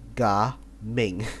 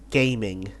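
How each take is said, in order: First: The first syllable sounds like 'gah'. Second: The first syllable sounds like 'game'. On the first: "the proper way to pronounce Gaming's name is actually Ga Ming" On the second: "His name is very funny"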